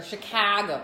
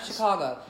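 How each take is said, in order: First: Chicago with a flat Midwestern "ca"; accent slipping out. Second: Chicago with a rounded "caw" middle; standard pronunciation. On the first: Transplant showing her accent slips, Chicago with flat Midwestern a. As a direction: say Chicago as "Shi-caah-go". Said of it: "something come out of my mouth". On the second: Transplant contrasting her accent, Chicago with standard open middle vowel. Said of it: "Not Chicago". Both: Shown as a demonstration.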